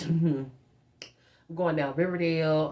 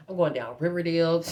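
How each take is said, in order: First: Slow, stretched words through a laugh; laughing, drawn out. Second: Said in the usual way. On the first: Shown as a demonstration. Cruising down Riverdale in Mom's car, slow and laughing. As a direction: savor every word of it slowly, giggling.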